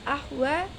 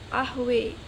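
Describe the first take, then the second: First: The final vowel is an open 'ah' sound. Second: The final vowel is shifted toward 'eh'.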